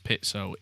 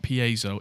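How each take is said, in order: First: The word is said with an Italian pronunciation. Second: The word is said with a non-Italian pronunciation. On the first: The speaker calls it right. "That's how Italians pronounce it" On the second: The speaker calls it wrong. "it's not piezo"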